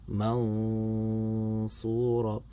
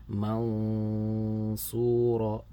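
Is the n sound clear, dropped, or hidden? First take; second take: hidden; hidden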